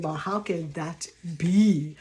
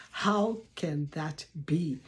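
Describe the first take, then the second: First: Lower, slow puzzled question; imitating a doubter. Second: Lower, slow, softer musing; quieter doubting echo. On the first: Viewer doubting a stranger's story, lower and slow. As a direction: voice a sceptical viewer. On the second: Retold or imitated. Viewer musing over the doubtful claim, softer and slow. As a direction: mull it over half to yourself. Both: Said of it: "and you're saying".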